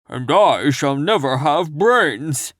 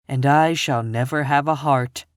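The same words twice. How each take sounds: First: Slow, louder, odd Scarecrow lament. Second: Barely voiced Tin Woodman, near plain. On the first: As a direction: drag it out like a floppy Scarecrow. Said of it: "added the Scarecrow". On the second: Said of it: "spoke the Tin Woodman". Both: A narrator's reading.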